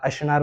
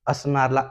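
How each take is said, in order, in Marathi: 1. मधला व्यंजन 'sh' आवाज आहे. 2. मधला व्यंजन साधा 's' आवाज आहे. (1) "स ला श म्हणतो" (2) "स ला"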